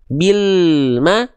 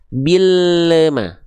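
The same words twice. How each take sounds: First: The L is held steady without a bounce. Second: The L is released with a bouncing echo. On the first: The speaker calls it right. "yang tidak mantul" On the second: The speaker calls it wrong. "dengan yang mantul"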